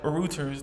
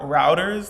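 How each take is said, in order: First: It is said in a British accent, like rooters. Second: It is said in an American accent.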